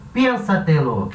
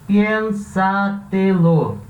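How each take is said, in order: First: Said in the usual way. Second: "Piénsatelo" very slow, with each syllable held apart. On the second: Shown as a demonstration. Teacher splitting a Spanish word for students, syllable by syllable. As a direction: break "Piénsatelo" into four drawn-out syllables. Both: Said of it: "Parando as sílabas".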